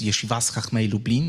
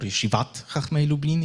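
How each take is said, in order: First: The first word ends with an S sound. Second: The first word ends with a T sound.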